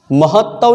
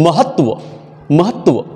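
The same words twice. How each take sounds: First: महत्व said slowly as mahattav; wrong pronunciation. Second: महत्व as mahat-va, twice; correct pronunciation. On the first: Teacher rejects a wrong form, महत्व as mahattav. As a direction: double the t and end महत्व in -av. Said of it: "नहीं". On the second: Teacher corrects the word for pupils, महत्व as mahat-va. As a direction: end each महत्व on tva, never -tav. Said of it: "महत्व नहीं". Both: Shown as a demonstration.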